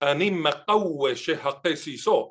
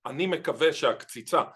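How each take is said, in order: First: It is said in a Yemenite Hebrew accent. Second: It is said in a modern Israeli accent.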